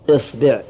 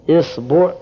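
First: The word begins with the vowel i. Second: The word begins with the vowel i.

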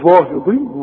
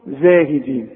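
First: The first consonant is a heavy, emphatic z. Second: The first consonant is a plain, light z. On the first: The speaker calls it wrong. "عمرك ما هتقول لي كده ابدا" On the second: The speaker calls it right. "بتقولها سليمة صحيحة"

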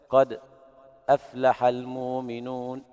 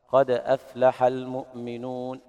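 First: A brief silent pause comes before aflaha. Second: A full glottal stop begins aflaha. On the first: "يقرأ بالسكت" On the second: "يقرؤون بالتحقيق"

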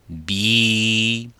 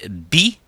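First: The vowel is held for about two beats. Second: The vowel is held briefly. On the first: "ça va donner bi" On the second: "si on prolonge bi"

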